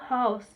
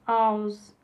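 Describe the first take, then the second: First: The initial h is pronounced. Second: The initial h is dropped, Cockney style.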